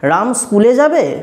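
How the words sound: It is said in a questioning tune. It asks whether Ram will go to school. "গলার কণ্ঠস্বরটাকে অন্যভাবে করলাম"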